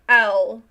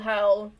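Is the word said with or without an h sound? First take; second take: without; with. First: It is said without the h sound. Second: It is said with the h sound. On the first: "the second owl was like just taking out the H" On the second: "It's essentially why would the owl howl?"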